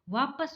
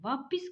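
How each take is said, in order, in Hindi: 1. दूसरे अक्षर में 'a' स्वर है। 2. दूसरे अक्षर में 'i' स्वर है। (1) "वापस होता है" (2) "वापिस कोई शब्द होता ही नहीं है"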